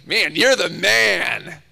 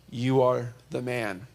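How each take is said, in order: First: It sounds like casual, admiring praise. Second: It sounds like a serious, accusing statement.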